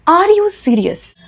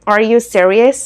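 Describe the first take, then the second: First: Everyday Indian English, slow and higher; a plain Indian-English question; Indian accent. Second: American English pushed through the nose; nasal American accent. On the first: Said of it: "normal Indian accent में". (नॉर्मल Indian accent में) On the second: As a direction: lean on the vowels, nasal and American. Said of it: "नाक से". (नाक से, American accent में) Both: Shown as a demonstration.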